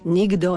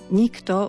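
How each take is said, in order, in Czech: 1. Slovo se čte rychle se změněnou koncovkou. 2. Slovo končí zřetelným zvukem 'kto'. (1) "keď sa ľudia snažia prečítať to rýchlo, čo nie je dobré" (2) "musí byť to kto, je vždy kto"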